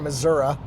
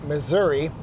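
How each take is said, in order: First: It is said in the local regional pronunciation. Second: It is said in the speaker's usual pronunciation.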